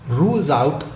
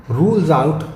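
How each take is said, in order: The two takes are said the same way.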